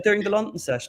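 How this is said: It is said in a put-on English accent.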